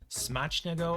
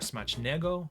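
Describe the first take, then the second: First: The stress is on the first syllable. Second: The stress is on the second syllable. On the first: "Is the emphasis on the first"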